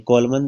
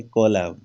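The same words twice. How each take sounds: First: "कॉलमन" ending in an extra "man" syllable; N wrongly sounded. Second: "कॉलम" ending on M; silent N. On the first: Teacher showing what not to say, N sounded in "कॉलमन". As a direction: voice the silent final N in "कॉलमन". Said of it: "तो नहीं बोलते इसको". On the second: Teacher showing how column is said, silent N in "कॉलम". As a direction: stop "कॉलम" at the M, no N after it. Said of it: "अन का उच्चारण नहीं होता". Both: Shown as a demonstration.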